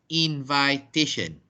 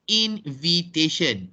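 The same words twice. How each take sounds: First: "invitation" said as in-VAI-tation; wrong pronunciation. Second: "invitation" with short i in the second syllable, in-vi-tation; slow, separated "invitation", "vi" not "vai"; correct pronunciation. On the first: Teacher showing the mistake to avoid, long-I pronunciation. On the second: Teacher modelling the noun for class, short-i pronunciation. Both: Shown as a demonstration. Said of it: "not invitation".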